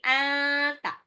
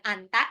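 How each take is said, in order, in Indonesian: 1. N tersembunyi dalam bunyi sengau. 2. N diucapkan sebagai konsonan yang jelas. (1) "tapi anta. Nun sukun ketemu ta ikfa" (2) "bukan anta"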